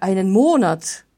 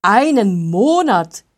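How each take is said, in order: First: Said in the usual way. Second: Much louder, slow, appalled cry; horrified exclamation. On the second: A narrator's reading. Wolfgang hearing the smith needs a month, appalled loud cry. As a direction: recoil at the word Monat in disbelief. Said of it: "rief Wolfgang entsetzt".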